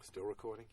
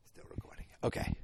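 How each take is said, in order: First: Said in the usual way. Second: Whispered, unvoiced and soft. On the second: Real, not acted. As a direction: whisper it so the mic barely hears.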